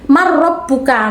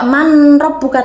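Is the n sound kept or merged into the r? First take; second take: merged; kept. First: The n merges fully into a doubled r. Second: The n is sounded clearly before the r. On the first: The speaker calls it right. "tapi marrabbuka" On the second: The speaker calls it wrong. "tidak manrabbuka"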